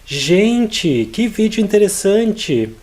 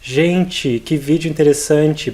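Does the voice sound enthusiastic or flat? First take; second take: enthusiastic; flat. First: It is said with lively enthusiasm. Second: It is said flatly, without enthusiasm. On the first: The speaker calls it right. "make sure you put some enthusiasm in your voice" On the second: The speaker calls it wrong. "So not"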